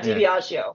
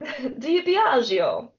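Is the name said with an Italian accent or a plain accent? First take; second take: plain; Italian. First: The name is said in a plain American accent. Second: The name is said in a put-on Italian accent.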